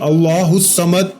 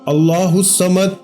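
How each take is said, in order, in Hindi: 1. हर शब्द अलग और ध्यान से बोला जाता है। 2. हर शब्द अलग और ध्यान से बोला जाता है।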